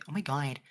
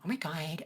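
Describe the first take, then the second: First: The voice is pitched low. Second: The voice is pitched high. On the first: The speaker calls it wrong. "there's kind of like this lower tone to it" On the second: The speaker calls it right. "it's kind of up here"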